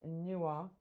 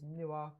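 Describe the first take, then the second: First: "Nua" slow, with a held n; "Nua" stretched as noo-uh, as in Twi; original Twi pronunciation. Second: "Nua" said quickly as noo-ah, London style; "Nua" in a casual London twang, no held n. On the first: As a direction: draw out "Nua", lingering on the first sound. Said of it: "we're not pronouncing it correctly". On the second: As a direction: say "Nua" with an open London ending. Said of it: "we say it with a London twang". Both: Shown as a demonstration.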